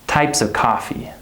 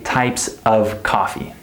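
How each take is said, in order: First: The word 'of' is reduced to 'uh'. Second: The word 'of' is said in full. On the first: The speaker calls it right. "This word is unstressed, it just becomes the schwa sound" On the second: The speaker calls it wrong. "they don't say types of coffee"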